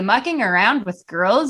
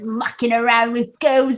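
First: It is spoken in an American accent. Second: It is spoken in a British accent. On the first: The speaker calls it wrong. "if we were just, like, Americans saying" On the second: The speaker calls it right. "we had to do the British accent for it"

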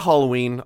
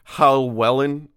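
First: The name is said like the English word Halloween. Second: The name is said with a German-style pronunciation. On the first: The speaker calls it wrong. "I'm going to say Halloween. I know that's not how you say it" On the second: The speaker calls it right. "It's Hallwellen"

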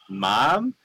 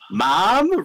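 First: The word is called at normal volume. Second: The word is called out more loudly.

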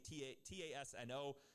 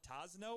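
First: The name is spelled out letter by letter. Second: The name is said as a single word. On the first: "or if you just say T-A-S-N-O" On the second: "I don't know if you say it as Tasno"

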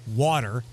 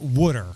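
First: It is said in a general American accent. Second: It is said in a Philadelphia accent.

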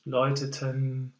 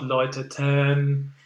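First: The last syllable is short and unstressed. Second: The last syllable is long and weighted. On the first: The speaker calls it right. "perhaps just to go to the N sound a bit faster" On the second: The speaker calls it wrong. "But not läuteten. This is way too much"

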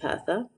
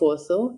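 First: It is said in the Eastern Assyrian dialect. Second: It is said in the Western Assyrian dialect.

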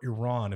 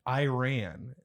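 First: Iran is said in a careful, learned way. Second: Iran is said in a casual, everyday way.

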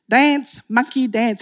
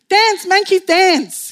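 First: It is said in the speaker's normal accent. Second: It is said in an imitated Australian accent.

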